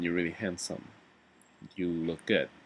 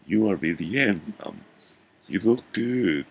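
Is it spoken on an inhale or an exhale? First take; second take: exhale; inhale. First: It is spoken normally, breathing out. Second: It is spoken while breathing in.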